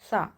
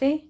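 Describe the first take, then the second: First: The word ends with an 'aa' vowel. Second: The word ends with an 'e' vowel. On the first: The speaker calls it right. "आ की आवाज़ निकाल रहे होंगे" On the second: The speaker calls it wrong. "ए की आवाज़ ना निकाल कर"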